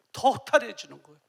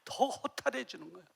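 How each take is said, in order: First: 더 허탈해지는 said louder with weight; louder emphatic repeat. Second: Said in the usual way. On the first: Shown as a demonstration. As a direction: press the repeat harder. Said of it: "repeated louder". (더 크게 힘주어 반복) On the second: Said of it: "repeated for emphasis".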